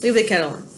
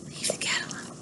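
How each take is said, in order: First: Said in the usual way. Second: Hushed whisper, no voice at all. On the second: Real, not acted. Teacher whispering a warning to the dog mid-lesson.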